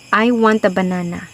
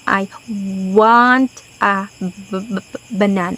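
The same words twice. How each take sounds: First: The sentence is said smoothly at normal length. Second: Some sounds in the sentence are held too long. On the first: "An example" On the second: "Those are examples of mga prolongations"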